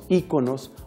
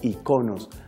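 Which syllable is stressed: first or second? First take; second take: first; second. First: The stress is on the first syllable. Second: The stress is on the second syllable. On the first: "Se pueden pronunciar de ambos modos" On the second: "De ambos modos es válido pronunciar"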